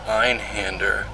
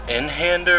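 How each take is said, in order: First: The first syllable sounds like 'eye'. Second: The first syllable sounds like 'in'. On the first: "I think it's Einhander because it's German" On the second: "Is it Inhander"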